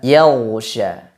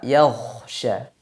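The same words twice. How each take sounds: First: The gh is a voiced, flowing throat sound. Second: The gh is hoarse and breathy, like kh.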